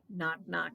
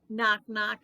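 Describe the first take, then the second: First: It is said at a normal, softer volume. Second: It is said a little louder.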